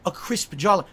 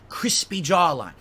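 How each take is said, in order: First: "crisp" said as one clean syllable with no -y ending; demonstrating the right word, "crisp"; correct word. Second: Crispy jawline with "crispy" said as the misused word; lightly mocking "crispy jawline"; quoting the wrong word. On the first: Shown as a demonstration. Correcting the other streamer, clearly saying "crisp". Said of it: "The word you're looking for is crisp". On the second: Quoting the other streamer's "crispy" with mild mockery. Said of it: "You know something you kept saying that really drove me nuts?".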